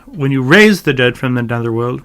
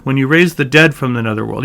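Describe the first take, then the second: First: "raised" emphasized over "dead"; stress on raised. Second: "dead" emphasized over "raised"; stress on dead. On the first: Teacher testing the emphasis, stressing "raised". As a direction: put the weight on "raised". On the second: Teacher finding the real emphasis, stressing "dead". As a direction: put the weight on "dead". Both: Shown as a demonstration. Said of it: "the real emphasis is here".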